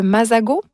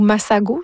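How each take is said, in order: First: "masago" said with a voiced Z, "mazago"; masago with Z sound. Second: "masago" said with a hissed S, "massago"; masago with S sound. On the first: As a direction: say "masago" with the S buzzed as Z. (« masago » prononcé avec un Z) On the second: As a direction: say "masago" with an unvoiced S, not Z. (« masago » prononcé avec un S) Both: Shown as a demonstration. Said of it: "si on le prononce avec un S".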